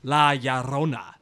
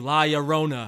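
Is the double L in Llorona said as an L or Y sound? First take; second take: Y sound; L sound. First: The double L sounds like a y. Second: The double L sounds like an English l. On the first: The speaker calls it right. "there we go. That's yes. better" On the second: The speaker calls it wrong. "I want to say it like that too"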